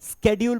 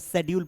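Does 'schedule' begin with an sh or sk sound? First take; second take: sk; sh. First: The word begins with an sk sound. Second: The word begins with an sh sound. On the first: "America क्या पढ़ेगा, स्केड्यूल पढ़ेगा" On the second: "British में C H silent हो गया, शेड्यूल पढ़ेंगे"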